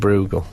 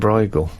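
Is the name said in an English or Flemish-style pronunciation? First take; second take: Flemish; English. First: The name has a regional Flemish-style pronunciation. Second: The name has a common English pronunciation. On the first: One person insisted on an unusual pronunciation. "she was saying Bruegel" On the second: This is how most people say it. "everyone else on there was saying Bruegel"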